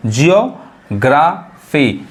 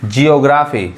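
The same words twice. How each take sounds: First: geography very slowly in parts, "jiyo... graa... fee"; slow teaching breakdown of geography; syllable by syllable. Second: Said in the usual way. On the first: Shown as a demonstration. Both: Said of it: "यानी GEO".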